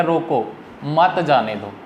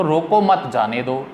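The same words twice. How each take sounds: First: रोको set apart, a short break, then मत जाने दो run together; pause after रोको. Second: रोको मत run together as one phrase, then जाने दो; pause moved after मत. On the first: Teacher showing students how the comma makes it a ban, pause after रोको. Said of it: "सख्ता की अलामत". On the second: Teacher showing students the moved comma reverses the meaning, pause after मत. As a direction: join मत onto रोको, break before जाने दो. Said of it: "मत के बाद लगा दें". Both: Shown as a demonstration.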